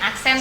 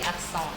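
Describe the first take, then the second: First: It is pronounced the Indonesian way, ending in 'sen'. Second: It is pronounced the French way, ending in 'son'. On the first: "kalau dibaca versi Indonesia" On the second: "kalau dalam bahasa Prancis jadi akson"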